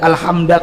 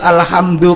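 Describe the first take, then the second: First: The word ends with an a vowel. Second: The word ends with a u vowel. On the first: The speaker calls it wrong. "Kenapa tidak alhamda?" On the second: The speaker calls it right. "Kenapa harus alhamdu?"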